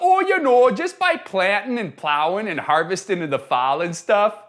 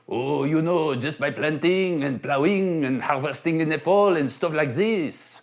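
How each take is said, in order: First: It is said without a French accent. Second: It is said with a French accent.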